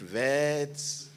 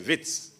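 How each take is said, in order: First: It begins with a V sound, drawn out. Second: It begins with a W sound, said short. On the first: "you can you know elongate it Vets" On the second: "or you can just say Wits"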